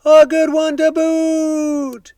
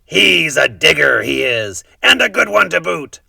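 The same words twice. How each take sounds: First: Very high, slow, drawn-out chorus voice; crew agreeing. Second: Loud, higher pirate boast; pirate yelling back. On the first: Pirate crew echoing their captain, high slow chorus. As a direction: echo it like a silly pirate crew. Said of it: "the others agreed". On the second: Head pirate yelling to his crew about the boy, loud pirate praise. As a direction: bellow praise across to the crew. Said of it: "yelled back to his crew". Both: A narrator's reading.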